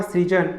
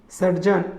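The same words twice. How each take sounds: First: सृजन as "sri-jan"; r then i in सृजन; correct सृजन. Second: सर्जन as "sar-jan"; vowel before the r in सर्जन; wrong सर्जन. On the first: Teacher giving correct form, सृजन as "srijan". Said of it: "इसका शुद्ध रूप होगा". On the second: Teacher showing the error, सर्जन as "sarjan". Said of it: "अशुद्ध रूप है". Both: Shown as a demonstration.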